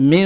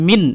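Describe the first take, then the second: First: মিন with a held nasal hum on the n; ghunnah nasalisation. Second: Said in the usual way. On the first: Shown as a demonstration. Teacher correcting to ghunnah, nasal hum held on মিন. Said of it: "গুণনা করবেন, এক আলিফ টান দিবেন". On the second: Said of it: "এরকম না বলে".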